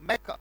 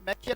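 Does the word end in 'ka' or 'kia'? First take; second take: ka; kia. First: It is said as 'maka', ending in 'ka'. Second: It is said as 'makia', ending in 'kia'. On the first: The speaker calls it right. "क्या पढ़ा जाएगा यहाँ तक, मैका" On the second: The speaker calls it wrong. "मैकिया नहीं पढ़ा जाएगा"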